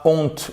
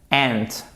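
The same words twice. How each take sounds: First: "aunt" with a rounded nasal "on" vowel, like "ont"; wrong aunt vowel. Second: "aunt" said exactly like the insect "ant". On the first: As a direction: say "aunt" as a French-sounding "ont". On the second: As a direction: give "aunt" a short front "a", as in "ant". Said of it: "Exactement comme la fourmi". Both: Shown as a demonstration.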